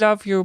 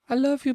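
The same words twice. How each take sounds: First: It is said in the speaker's ordinary voice. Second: It is said in an imitated character voice.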